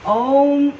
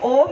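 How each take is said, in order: First: It is drawn out through 'a-u-m' sounds. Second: It is said as a plain short 'om'. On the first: The speaker calls it right. "ओम ऐसे कहना है" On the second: The speaker calls it wrong. "ओम नहीं कहना है"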